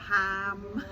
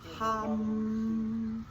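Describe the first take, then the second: First: The vowel is like the one in cat. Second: The vowel is like the one in cup. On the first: The speaker calls it wrong. "So it's not ham" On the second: The speaker calls it right. "you actually say it almost like hom, but hum"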